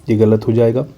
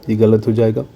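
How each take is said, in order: The two takes are said the same way.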